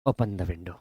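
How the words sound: It sounds soft and polite, like a request. The speaker is politely asking for it. "तो ये request में चला जाएगा"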